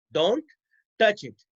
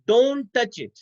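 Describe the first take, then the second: First: "Don't", pause, then "touch it"; word-by-word dictation. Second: Said in the usual way. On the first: Shown as a demonstration. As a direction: leave a clear gap after "Don't". Repeats example word by word.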